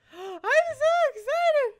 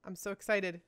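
First: Gasp, then a slow, high squeal; bursting with excitement. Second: Soft, low, contained excitement; quiet excitement. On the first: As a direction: draw it out in a giddy, high-pitched cry. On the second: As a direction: keep the excitement down to a murmur. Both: Real, not acted.

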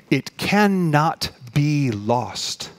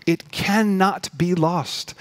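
First: Very slow, each word set apart; deliberate, drawn-out declaration at usual pitch; emphatic assurance. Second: Slow, higher-pitched repeat for emphasis; drawn-out, raised declaration without extra volume; insistent assurance. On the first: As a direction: drive it home word by word. Preacher drives the assurance home. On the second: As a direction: lift the pitch and space out every word. Preacher repeats the assurance, lifted. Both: Real, not acted.

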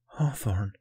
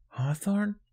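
First: Whispered realization; stunned whisper. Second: Hawthorne rising high as a question; questioning repeat. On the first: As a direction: whisper the name in disbelief. Stunned first take, then repeated. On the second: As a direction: echo Hawthorne as a puzzled, high-pitched question. Other boy repeats it questioningly. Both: A narrator's reading.

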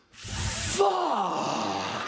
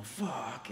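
First: Huge high drawn-out shout; stunned outburst. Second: Softly voiced mock exclamation; understated stunned recap. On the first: Retold or imitated. Sick boy suddenly seeing his hero, stunned shout. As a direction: imitate an awestruck fan, yelling it long and loud. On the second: Storyteller recalling the boy's stunned reaction, toned down.

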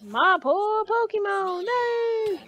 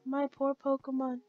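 First: High, drawn-out mock lament; slow whiny-pitched wail, climbing to the end; imitating a game character. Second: Said in the usual way. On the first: Player mimicking how the trainer says his one line, drawn-out mock lament. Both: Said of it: "Or as he says it".

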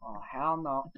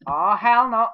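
First: Said in the usual way. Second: Hell punched loud and high; loud outraged yell. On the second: Real, not acted. Reacting to game event.

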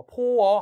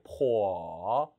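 First: 포어 split into two separate vowels; wrong 포어. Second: Low dipping 포어 in one smooth glide; natural 포어. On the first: Teacher showing what to avoid, disjointed 포어. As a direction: break 포어 apart, 포 then 어. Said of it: "하지 말고". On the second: Teacher correcting learners, 포어 joined naturally, dipping. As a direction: blend 포어 together, dip and rise. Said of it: "자연스럽게". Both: Shown as a demonstration.

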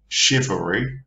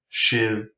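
First: Said in the usual way. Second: "shivery" in three widely separated beats; syllable by syllable. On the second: Shown as a demonstration. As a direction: break "shivery" into shiv, er, ree with long gaps. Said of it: "that's three syllables".

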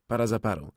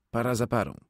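No difference in how they are said.

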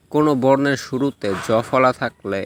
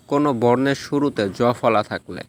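The two takes are said the same way.

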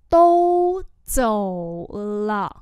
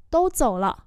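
First: Each syllable drawn out slowly; slow teaching repeat. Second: Said in the usual way. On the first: Shown as a demonstration. Teacher slowly models the phrase for students, drawn out. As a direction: spell it out slowly for learners. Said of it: "slow repeat". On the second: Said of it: "normal model".

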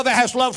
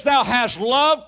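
First: Said in the usual way. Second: "Thou hast loved" slow, rising on "loved"; drawn-out call. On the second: Shown as a demonstration. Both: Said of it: "talk to me now".

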